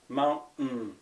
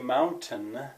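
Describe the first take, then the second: First: The middle t is a glottal stop. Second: The middle t is fully pronounced. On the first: "this apostrophe in my spelling system means a glottal stop" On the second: "you can say mountain, in which case you you would be making a different sound"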